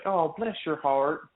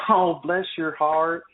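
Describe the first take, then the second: First: Slow, sincere "Oh, bless your heart"; a kind Southern blessing, drawn out. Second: Slow, sugary "Oh, bless your heart" with a hidden insult; sweet on top, a put-down underneath, drawn out; mock sweet. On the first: Retold or imitated. Southerner sincerely blessing someone, slow and kind. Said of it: "it's like". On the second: Southerner brushing off a late excuse, falsely sweet and slow. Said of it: "And they're just like".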